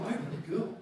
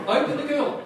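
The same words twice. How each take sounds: First: Said in the usual way. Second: Laughing repeat. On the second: Real, not acted. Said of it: "That is a Freudian slap".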